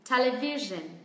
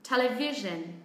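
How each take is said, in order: First: The main stress is on the third syllable. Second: The same.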